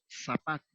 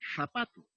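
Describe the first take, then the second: First: The word begins with an s sound. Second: The word begins with a th sound. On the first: "lo pronunciamos en forma de S" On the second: "No decimos zapato"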